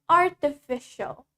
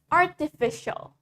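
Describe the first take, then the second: First: The t is a clear t sound. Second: The same.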